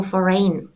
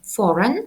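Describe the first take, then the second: First: Foreign as FOR-rain, the common mistake; wrong pronunciation. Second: Foreign as FOR-in, short unstressed end; correct pronunciation. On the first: Teacher imitates students mispronouncing foreign. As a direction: mimic the students' error in foreign. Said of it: "Це невірно". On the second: Teacher gives the correct way to say foreign. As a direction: model the right foreign. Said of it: "Правильна вимова". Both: Shown as a demonstration.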